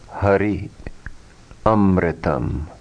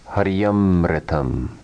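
First: The two words are said separately. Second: The two words are merged into one.

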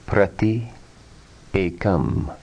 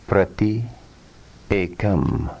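Both takes have the same delivery.

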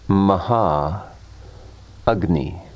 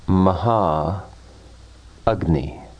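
Both takes have the same delivery.

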